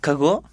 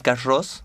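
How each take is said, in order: First: The name is said with a French-style pronunciation. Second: The name is said with a Spanish-style pronunciation. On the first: This is the original pronunciation of the name. The speaker calls it right. "in French" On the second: This is how people in Argentina say it. The speaker calls it wrong. "the pronunciation is not really Carros. We call it like that because we are Argentinian"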